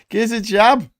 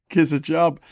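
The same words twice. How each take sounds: First: High, loud Scouse catchphrase; shouted Scouse plea, much higher; Yozza Hughes. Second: Raised, louder catchphrase impression; lightly voiced Scouse catchphrase; Yozza Hughes. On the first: Acted. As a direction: push the accent hard, 'jab' for 'job'. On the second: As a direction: toss out the Scouse plea. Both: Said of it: "says Yozza Hughes".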